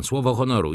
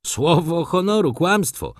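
First: Said in the usual way. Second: Higher and pushed, honoru stressed; angry exclamation. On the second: A narrator's reading. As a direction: flare up red with anger on Słowo honoru. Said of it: "zawołał młody człowiek, rumieniąc się z gniewu".

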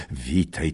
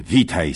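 First: Said in the usual way. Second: Witaj called out louder and falling; hearty louder witaj; louder second greeting. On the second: Acted. Greeting old friend twice.

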